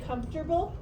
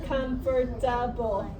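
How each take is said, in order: First: The word is said quickly with a syllable dropped. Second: The word is said carefully with every syllable. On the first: The speaker calls it wrong. "If we say it fast, we say" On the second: The speaker calls it right. "the way that you're supposed to say it"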